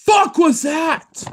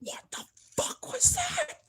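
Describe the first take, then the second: First: Very high, loud, drawn-out shock; real startled shout. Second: Very high, softer, slow disbelief; real hushed alarm. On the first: Startled by something unexplained nearby. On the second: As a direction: squeak it out in held-back shock. Startled again, voice held back. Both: Real, not acted.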